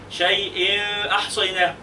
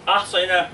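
First: شيء أحصيناه said slowly with the nunation heard clearly before the hamza; tajweed hiding. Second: Said in the usual way. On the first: Shown as a demonstration. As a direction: draw out أحصيناه carefully, tajweed style. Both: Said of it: "ما هقولش شيء أحصيناه".

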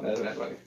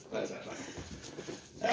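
First: Said in the usual way. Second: That's not funny whispered, slow and much softer; That's not funny as a drawn-out, soft, unvoiced whisper. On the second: Shown as a demonstration.

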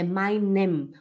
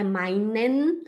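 First: Meinem closed on a humming m; final M. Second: Meinen ending on an n; slow "meinen", tongue-tip n at the end; final N. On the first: Teacher correcting, meinem ending with lips shut on m. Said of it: "é meinem". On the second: Teacher showing the mistake, meinen closed with n. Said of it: "Não é meinen". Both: Shown as a demonstration.

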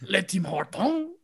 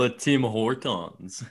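First: "Le Tim Hortons" slow, with a French "Hortons" rising; slow mock French "Le Tim Hortons"; mock French echo. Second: "Le Tim Hortons" slowly in a light mock French accent. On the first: Echoing the French name. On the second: Joking French store names.

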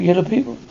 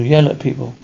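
First: "yellow people", the misheard version with yellow; "yellow people" heard wrongly as the colour. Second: "Yell at people" with a clear break between yell and at, stress on YELL; "Yell at people", set apart from yellow; corrected yell at. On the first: Retold or imitated. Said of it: "No, not yellow people". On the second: Shown as a demonstration. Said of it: "No, not yellow people. Yell at people".

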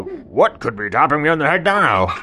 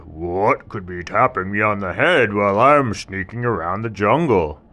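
First: Loud, laughing tiger question. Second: Loud, questioning tiger voice; puzzled tiger. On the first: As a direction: ask it through a laugh. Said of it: "And the tiger saw". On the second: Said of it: "And the tiger said". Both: Acted.

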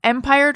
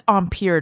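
First: "Empire" said EM-pire; "Empire" the plain English way; everyday pronunciation. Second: "Empire" said om-PEER; "Empire" with a French om opening; French-style pronunciation. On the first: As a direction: stress EM, rhyme "Empire" with fire. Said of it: "I've always said Empire waistline". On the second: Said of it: "I think it's Empire dress". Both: Shown as a demonstration.

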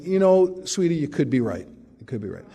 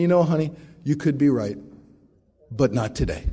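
First: Calm him down sweetly; mild mock-sweet wife; soothing wife. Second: Sweet start, dropping to a dry closer; mild teasing wife; wife's sweet put-down. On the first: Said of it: "is fond of saying". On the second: Retold or imitated. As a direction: let him down gently but firmly. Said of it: "Nancy said to me".

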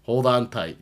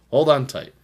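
First: Loud high hype call again; hype announcer. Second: Loud high hype call; hype announcer. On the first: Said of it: "That's fun to say". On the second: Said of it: "I'm gonna say that a lot now". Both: Acted. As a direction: shout it like a promo.

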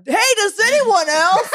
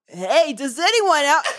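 First: Slow, high mocking sing-song; mocking the phrasing. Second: Slow mocking sing-song; mocking the phrasing. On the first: Mocking a Reddit post's opening, slow and sneering. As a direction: sneer the question out slowly. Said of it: "It's the phrasing". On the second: Ranting friend mocks the post, slow and sneering. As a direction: drag the question out with a laugh. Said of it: "Don't go".

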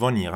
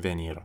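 First: "ونیر" as vuh-NEER, with a schwa; "ونیر" with a neutral first vowel and French r; correct French venir. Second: "ونیر" as vay-NEER, with an é; "ونیر" opening on "veh" instead of "vuh"; mispronounced French venir. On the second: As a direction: say "ونیر" with a wrong e-acute in the first syllable. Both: Shown as a demonstration.

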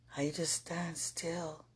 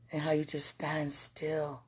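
First: Slow hushed whisper; soft reverent whisper. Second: Said in the usual way. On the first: Real, not acted. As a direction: breathe the words out, slowly. Repeats the phrase, now whispered.

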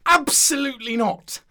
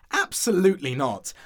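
First: High, loud indignant refusal; exasperated shout of refusal; indignant outburst. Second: Firm, somewhat loud objection; emphatic, indignant no; firm refusal. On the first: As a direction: burst out with it, outraged. Objection escalates after searching for words. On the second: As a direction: refuse it outright, pitched up a little. Ghost objects to apricot walls. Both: Acted.

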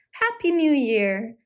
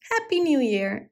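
First: Cried out. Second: A little higher, quicker echo of the greeting; cried out. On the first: Goblin waving and bowing to the children, glad call. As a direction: call out the greeting joyfully, drawn out. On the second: Goblin calling to the children again, lighter echo. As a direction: repeat the cheer lightly. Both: A narrator's reading. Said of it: "he cried".

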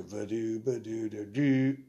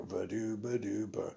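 First: A slow, louder scatted sax riff that lands on the wrong note. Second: Scatted sax riff. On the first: Sax player shows the prank note he played, louder and slower. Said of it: "I'd hit a C". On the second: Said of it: "But I go". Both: Retold or imitated.

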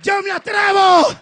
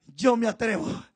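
First: "Yo me atrevo" shouted high and loud with a rise; bold shout. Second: "Yo me atrevo" low and soft, almost to himself; quiet resolve. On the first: Moses boldly volunteering before God, shouting. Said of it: "dijo Moisés". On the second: Moses quietly offering himself to God, low and soft. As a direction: murmur "Yo me atrevo" with calm resolve. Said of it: "Entonces Moisés dijo". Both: Acted.

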